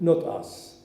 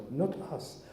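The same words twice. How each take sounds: First: Quoted firmly and a bit louder; the mayor's slogan, stated with conviction; mayor's advice, quoted a touch louder and firm; firm quote. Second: Softer, musing to himself; quiet reflection. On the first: Retold or imitated. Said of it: "And she said". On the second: Real, not acted. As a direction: let the words sink in, softly. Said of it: "that's such a wisdom".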